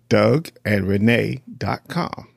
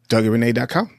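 First: It is said more slowly. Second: It is said at normal speed.

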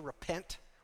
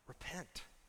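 First: It is said as a stern, forceful command. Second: It is said as a warm, caring plea. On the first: It is an order from an authority. "like a military leader commanding somebody" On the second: It is a plea out of love. "like a dad who loves his kids"

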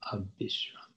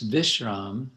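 First: The middle consonant is a b sound. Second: The middle consonant is a v sound. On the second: "In Sanskrit, it would be a V"

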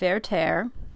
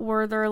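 First: The name begins with a V sound. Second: The name begins with an English W sound. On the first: The speaker calls it right. "It is pronounced Werther... the W is pronounced like a V" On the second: The speaker calls it wrong. "It's not Werther like Werther's original"

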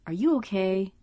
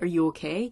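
First: It is asked as a sincere, open question. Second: It is asked as if expecting a yes. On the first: The asker genuinely wants to know the answer. "it's more, are you okay? You know, like he actually wants to know" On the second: The asker wants to be reassured that all is fine. "the way that they're asking her is, you're okay, right?"

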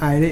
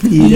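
First: The name begins with an 'eye' vowel sound. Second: The name begins with an 'ee' vowel sound. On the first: The speaker calls it wrong. "I almost said Ida, but it's not Ida" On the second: The speaker calls it right. "it's Eda"

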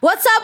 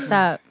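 First: It is said with more power and energy. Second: It is said with little energy.

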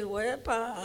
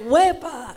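First: It sounds like a mocking, caught-you surprise. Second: It sounds joyful and celebratory.

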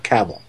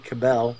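First: The name is said the Southern US way. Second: The name is said the Northern US way.

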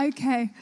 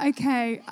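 No difference in how they are said.

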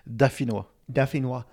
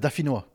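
First: The word is said more slowly and carefully. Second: The word is said at normal conversational speed.

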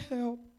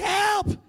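First: The word is said quietly and weakly. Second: The word is screamed loudly.

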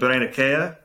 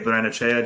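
First: The name is pronounced the Italian way. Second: The name is pronounced the Argentine Spanish way. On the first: "if it's the Italian pronunciation, it would probably be" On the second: "because he's Argentinian, they probably say"

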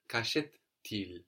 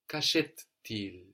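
First: Que and achète merge, with a linking t. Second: The same.

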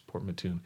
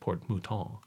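First: The name is pronounced the English way. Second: The name is pronounced the French way. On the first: The speaker calls it right. "but no, it's Port Mouton" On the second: The speaker calls it wrong. "I mispronounced it, too. I said Port Mouton. I thought it was French"

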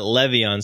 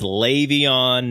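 First: The first syllable is said like 'leh'. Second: The first syllable is said like 'lay'. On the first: The speaker calls it wrong. "not le" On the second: The speaker calls it right. "it's actually lay, not le"

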